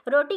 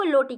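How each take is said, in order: First: Said in the usual way. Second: लोटी for roti, r turned into l; lisping mispronunciation. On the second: Shown as a demonstration. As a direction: say लोटी with an l replacing the r. (रोटी के र को ल बनाकर "लोटी") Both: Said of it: "र को ल में परिवर्तित".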